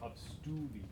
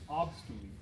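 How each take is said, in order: First: The stress falls on the second syllable. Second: The stress is not on the second syllable. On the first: The speaker calls it wrong. "not obstulit ... avoid an implied accent on stu" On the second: The speaker calls it right. "the word is obstulit"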